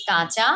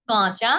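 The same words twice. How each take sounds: First: Said in the usual way. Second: "কাঁচা" with a nasal first vowel; nasalised vowel. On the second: Shown as a demonstration. Teacher recapping chandrabindu, nasalised. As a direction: send the first vowel of "কাঁচা" through the nose. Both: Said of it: "এই গেল চন্দ্রবিন্দুর উচ্চারণগুলো".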